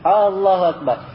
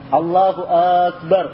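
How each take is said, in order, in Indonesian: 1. Vokal pertama pada Allah dipanjangkan. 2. Vokal pertama pada Akbar dipanjangkan. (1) "Allahu Akbar hanya panjang" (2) "alif di akbarnya panjang"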